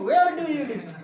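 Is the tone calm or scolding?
scolding. It is said in a harsh, scolding tone. The speaker calls it wrong. "ऐसे डांट के"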